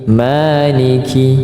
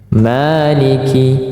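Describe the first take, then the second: First: The long vowel is held for two beats. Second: The long vowel is held for two beats.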